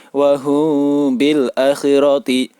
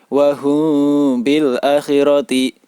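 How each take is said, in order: The two takes are said the same way.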